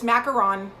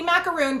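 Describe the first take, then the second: First: The last syllable has a short 'on' sound. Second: The last syllable has a long 'oon' sound. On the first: The speaker calls it right. "but it's macaron" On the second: The speaker calls it wrong. "I always I say macaroon"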